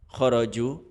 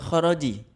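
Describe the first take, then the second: First: The word ends with the vowel u. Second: The word ends with the vowel i. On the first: "khoroju atau khoroji" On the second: "khoroju atau khoroji"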